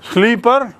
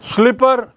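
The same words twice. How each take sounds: First: The first vowel is a long 'ee' sound. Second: The first vowel is a short 'i' sound. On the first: The speaker calls it wrong. "ना ना ना" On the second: The speaker calls it right. "Yes; ला में छोटे ही की मात्रा होती है"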